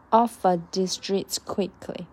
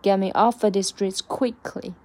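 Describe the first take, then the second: First: Slowly, "Off of" joined into one "offa" with a schwa; slow linked offa. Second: "off" stressed, "off of" run together as "offa". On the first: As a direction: glide "Off of" together slow, stress "Off". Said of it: "连在一起变成offer". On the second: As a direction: hit "off" and blur "of" into a schwa. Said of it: "offer要重读出来". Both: Shown as a demonstration.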